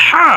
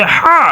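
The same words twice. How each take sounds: First: হা breathed from the middle of the throat. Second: Said in the usual way. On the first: Shown as a demonstration. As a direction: say হা as an open throaty h from mid-throat. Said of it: "হলকের মধ্যখান থেকে উচ্চারিত হবে হা". (গলার মধ্যখান থেকে হা উচ্চারণ) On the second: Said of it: "এই হায়ের উচ্চারণটা হবে".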